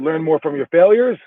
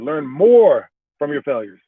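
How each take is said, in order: First: The emphasis falls on the word failures. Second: The emphasis falls on the word more. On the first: Failures teach more than successes do. "learn more from your failures than you learn from your successes" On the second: You should learn more deeply from failures than now. "you might be learning from your failures now, but you should learn more"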